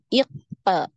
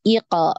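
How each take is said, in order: First: There is a small break before the echo sound. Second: The echo sound follows at once without a break. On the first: The speaker calls it wrong. "ini dijeda ya, tidak boleh" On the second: The speaker calls it right. "langsung ngalir aja"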